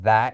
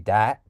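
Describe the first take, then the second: First: The word begins with a soft TH sound. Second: The word begins with a hard D sound. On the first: "rather than a T H" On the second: "with a D rather than a T H"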